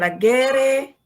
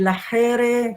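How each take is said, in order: First: The middle consonant sounds like a plain g. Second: The middle consonant sounds like a k. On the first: The speaker calls it wrong. "bukan lagere" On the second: The speaker calls it right. "G itu dibaca dengan K. Jadi lahere gitu"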